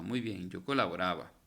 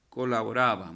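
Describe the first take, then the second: First: Said in the usual way. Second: Colaboraba said much louder as the answer; emphatic answer. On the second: Shown as a demonstration. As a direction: announce colaboraba loudly to the class. (colaboraba dicho en voz muy alta como respuesta)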